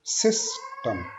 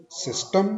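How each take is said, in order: First: system slow, weight on सिस; correct first-syllable stress. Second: system with a high rising second syllable; wrong stress demo. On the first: Teacher models correct stress slowly for students. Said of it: "first syllable पे हमने stress देना है". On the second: Teacher mocks the wrong stress, rising high at the end. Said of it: "completely गलत है". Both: Shown as a demonstration.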